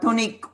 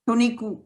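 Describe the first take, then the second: First: The final u is voiceless. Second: The final u is fully voiced.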